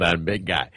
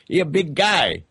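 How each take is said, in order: First: Said in the usual way. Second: "He a big guy" in a higher mock accent; put-on accent. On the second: Shown as a demonstration. Host joking about the guest's size in an accent. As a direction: drop the verb, lift the pitch, joke accent. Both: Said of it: "I don't know what accent I'm doing".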